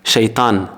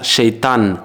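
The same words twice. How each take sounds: No difference in how they are said.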